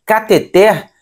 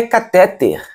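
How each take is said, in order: First: CateTER stressed on the final syllable; Cateter, weight landing at the very end; correct cateter. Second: CaTÉter stressed on the middle syllable; catéter, weak final syllable after strong TÉ; mispronounced catéter. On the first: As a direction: say "Cateter" with a strong open last syllable TER. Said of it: "A sílaba mais forte é a última". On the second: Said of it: "não é catéter". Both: Shown as a demonstration.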